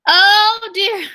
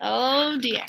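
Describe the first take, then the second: First: Higher, louder oh dear in mock dismay; dramatic oh dear. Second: Said in the usual way. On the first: Teacher reacts to the sad dog, higher and louder. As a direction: gasp it out like a storyteller. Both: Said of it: "I just said that".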